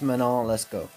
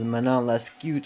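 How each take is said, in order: First: The name ends with an O vowel. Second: The name ends with a T sound. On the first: The speaker calls it right. "but it's Manon Lescaut" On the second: The speaker calls it wrong. "Originally, I thought it was Manon Lescute or something like that"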